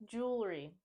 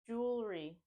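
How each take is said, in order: No difference in how they are said.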